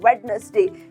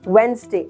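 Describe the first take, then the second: First: The first 'd' and middle syllable are pronounced. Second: The first 'd' is silent, two syllables only. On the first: The speaker calls it wrong. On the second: The speaker calls it right.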